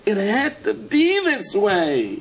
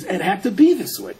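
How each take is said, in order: First: High, very slow "It had to be this way"; drawn-out climactic cry. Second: Raised, emphatic "it had to be this way"; emphatic declaration. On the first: Reuven seeing the answer, drawn-out cry on "had to be this way". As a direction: stretch every word of "had to be this way" on a high note. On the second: Reuven seeing the answer, emphatic "had to be this way". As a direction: state "had to be" firmly, somewhat high, without drawing it out. First take of repeated climax line. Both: Acted.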